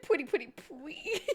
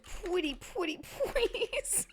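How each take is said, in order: First: Soft "pretty, pretty, please" with w sound, trailing off; whisper-soft "pwetty" baby talk; says w for r. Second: Put-on "pretty" as "pwetty", soft and high, baby talk; says w for r. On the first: Pretend. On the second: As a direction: coo "pretty, pretty, please" with w for r. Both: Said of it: "What if I said".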